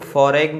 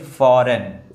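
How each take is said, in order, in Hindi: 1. "n" से पहले "g" की आवाज़ सुनाई देती है। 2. "n" से पहले "g" की आवाज़ सुनाई नहीं देती। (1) "इसको हम फॉरेन नहीं पढ़ेंगे" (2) "ये जी जो है वो साइलेंट है, इसको पढ़ेंगे फॉरेन"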